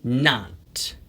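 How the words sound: It is said with an American accent. "미국식으로 발음을 할 때는 이렇게"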